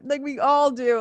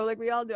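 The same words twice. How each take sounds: First: Higher and louder, pressing on all; emphatic. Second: Said in the usual way. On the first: Real, not acted. Host insisting to listeners that everyone does it, loud.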